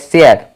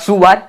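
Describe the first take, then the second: First: It is said as 'share'. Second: It is said as 'suar'. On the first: The speaker calls it right. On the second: The speaker calls it wrong.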